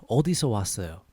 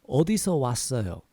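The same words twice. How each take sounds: Both takes have the same delivery.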